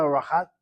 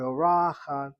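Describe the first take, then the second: First: Orachat stressed on the last syllable, CHAT; wrong stress. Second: Orachat with the second syllable, RA, stressed. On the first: Teacher shows class the mistaken accent, orachat stressed on CHAT. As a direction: orachat without weight on the RA. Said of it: "not orachat". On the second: Teacher shows class the correct accent, orachat stressed on RA. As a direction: lean on the RA in orachat. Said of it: "but orachat". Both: Shown as a demonstration.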